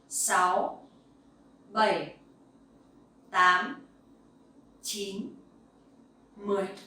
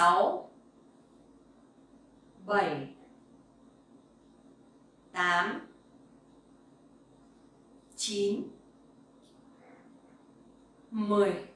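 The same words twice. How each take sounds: First: The numbers are counted at a faster pace. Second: The numbers are counted at a slow pace.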